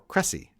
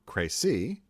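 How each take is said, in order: First: The name is said with English vowels. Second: The name is said with French vowels. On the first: This is the traditional form used in English. The speaker calls it wrong. "the traditional English pronunciation is Cressy" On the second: This is the proper form of the name. The speaker calls it right. "which is proper"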